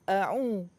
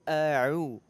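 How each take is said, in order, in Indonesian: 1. Bunyi ain keluar lewat hidung. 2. Bunyi ain berasal dari tengah tenggorokan.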